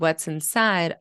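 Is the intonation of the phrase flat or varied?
flat. The phrase is said flat without intonational stress. "there's a lack of intonational stress"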